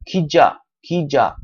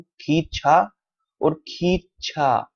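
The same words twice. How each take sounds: First: खींचा softened to "khija", no puff of air; plain consonant. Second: खींचा with a puffed, aspirated "chha"; aspirated consonant. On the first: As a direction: say the end of खींचा as an unaspirated "ja". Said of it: "प्लेन consonant है". (खींचा में बिना हवा के सादा "जा") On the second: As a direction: say खींचा with a burst of air on the second consonant. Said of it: "ये आपका एस्पिरेटेड कॉन्सोनेंट है". (खींचा में महाप्राण "छ" की आवाज़) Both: Shown as a demonstration.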